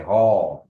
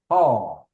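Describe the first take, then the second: First: Haw said lower and louder, falling. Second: The wrong Haw, pitch held up. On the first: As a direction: correct Haw with the pitch going down. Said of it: "You say". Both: Shown as a demonstration.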